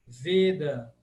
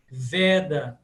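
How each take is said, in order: First: Veda with a closed E; closed 'e' vowel in Veda. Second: Veda with an open E. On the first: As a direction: say 'VAY-da' for Veda. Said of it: "sempre fechado". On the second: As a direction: say 'VEH-da' for Veda. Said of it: "falar esse som sempre aberto". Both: Shown as a demonstration.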